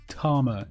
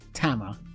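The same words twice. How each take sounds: First: It is said in a posh English accent. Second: It is said in a northern English or American accent. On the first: "if you're a posh Englishman" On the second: "if you're from the north of England or America"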